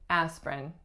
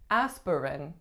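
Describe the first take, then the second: First: The middle syllable is dropped, giving two syllables. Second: Every syllable is pronounced as the spelling suggests. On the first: "most people say" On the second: "It looks like it should be"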